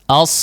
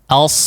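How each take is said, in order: No difference in how they are said.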